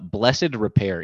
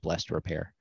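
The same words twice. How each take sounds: First: Blessed is said with two syllables, bless-ed. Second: Blessed is said with one syllable, blest. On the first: "I'm gonna say it with the little thing over the E" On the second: "so it's really just"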